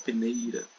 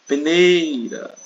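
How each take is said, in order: First: Said in the usual way. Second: Peneira called out high and loud, long NEI; stressed syllable stretched. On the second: Shown as a demonstration. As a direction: drag out the NEI of peneira slowly. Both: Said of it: "arrastar um pouco mais".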